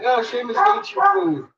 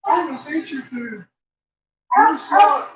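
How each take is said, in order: First: High, squeaky dog voice; voicing the dog. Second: Voicing the dog. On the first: Owner voicing her dog scolding Seamus, high. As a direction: chirp it high like a bossy little dog. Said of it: "It's like". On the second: Owner voicing her dog nagging Seamus, high. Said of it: "That's all I'm hearing".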